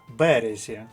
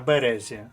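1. Наголос на першому складі. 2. Наголос на другому складі. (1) "Якщо ми наголосимо перший склад" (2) "А якщо ми наголосимо другий склад"

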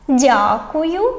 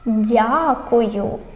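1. Слово вимовляють швидко й жваво. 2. Слово вимовляють повільно та протяжно. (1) "Читаємо спочатку, як сороки" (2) "а тепер як черепашки"

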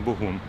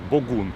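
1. Ім'я починається з м'якого звуку Г. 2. Ім'я починається зі твердого звуку Ґ. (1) "не Богун" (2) "Саме так, Богун"

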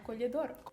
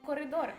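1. У слові є звук l після першого голосного. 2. У слові є звук r після першого голосного. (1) "а колідор" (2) "Але не коридор"

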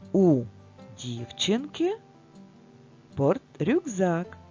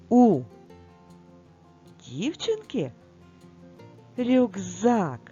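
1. Це сказано спокійним, простим розповідним тоном. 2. Це сказано радісним, піднесеним тоном.

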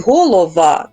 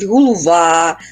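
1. Середній голосний — звук 'o'. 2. Середній голосний — звук 'u'. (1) "замість «голова»" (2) "кажуть «голува»"

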